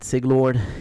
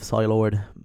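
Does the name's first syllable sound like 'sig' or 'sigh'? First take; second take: sig; sigh. First: The first syllable sounds like 'sig'. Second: The first syllable sounds like 'sigh'. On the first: The speaker calls it wrong. "French people were always mispronouncing my name. Uh, they said Siglord" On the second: The speaker calls it right. "instead of Psylord"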